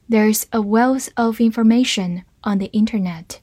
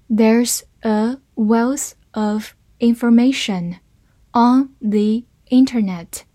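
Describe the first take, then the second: First: Said in the usual way. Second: Slow, careful model reading. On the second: Shown as a demonstration. Teacher reading slowly for the class to follow, slow and clear. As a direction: stretch each word out clearly. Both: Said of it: "好，慢慢来读".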